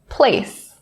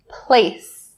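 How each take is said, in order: First: The final s sound is said clearly. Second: The same.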